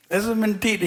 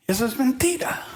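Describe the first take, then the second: First: "mentira" dicho firme, cayendo; repetido más firme. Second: "mentira" acentuado y subiendo al final; énfasis en mentira. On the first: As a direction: reafirmar "mentira" más seco. ("mentira" repetido con firmeza) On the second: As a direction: marcar fuerte "mentira" con subida. ("mentira" recalcado, tono ascendente) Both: Shown as a demonstration.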